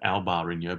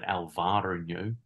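First: The middle consonant sounds like a b. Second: The middle consonant sounds like a v. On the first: The speaker calls it wrong. "Not Alvarinho" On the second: The speaker calls it right. "but Alvarinho ... They actually spell it with a V"

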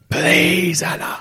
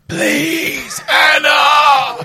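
First: It is said plainly, without strong emphasis. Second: It is said pleadingly, stressing both words strongly.

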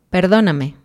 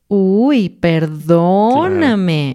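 First: It is said in a sincere tone. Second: It is said in a sarcastic tone.

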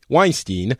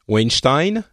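First: The name is pronounced the English way. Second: The name is pronounced the French way. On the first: "but anyway" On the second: "in France, everyone insists on calling it Weinstein"

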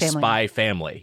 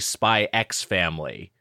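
First: The X is left silent between the words. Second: The X is spoken between the two words. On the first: The speaker calls it right. "You say spy family. The X is unpronounced" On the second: The speaker calls it wrong. "you don't say Spy X Family"

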